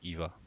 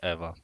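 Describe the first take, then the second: First: The name is said with an English pronunciation. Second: The name is said with a Polish pronunciation. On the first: "but you can call it Eva" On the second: "it's a Polish Eva"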